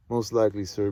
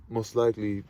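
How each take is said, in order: First: Dry funny. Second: Said in the usual way. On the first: A narrator's reading. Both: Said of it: "Am I being funny right there?".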